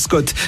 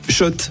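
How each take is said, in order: First: The name begins with an sk sound. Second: The name begins with an sh sound. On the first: The speaker calls it wrong. "ça fait des années qu'on prononce mal la marque" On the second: The speaker calls it right. "Oui, Shot"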